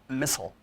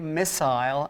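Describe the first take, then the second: First: It is said with an American pronunciation. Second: It is said with a British pronunciation.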